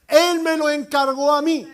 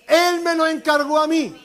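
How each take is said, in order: First: It is said with ordinary, calmer energy. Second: It is said with more force and enthusiasm.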